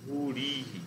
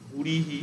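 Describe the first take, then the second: First: ভুরিহি with the রি lengthened to রী; correct long-vowel demo. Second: ভুরিহি with the রি kept short; wrong short-vowel demo. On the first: Teacher demonstrating the correct form to students, long vowel. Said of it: "এইরকম হয়ে যাচ্ছে". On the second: Teacher demonstrating the wrong form to students, short vowel. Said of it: "এইরকম হচ্ছে না". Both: Shown as a demonstration.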